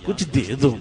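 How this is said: It is said in a meek, pleading tone. The asker shows humility and lowliness. The speaker calls it right.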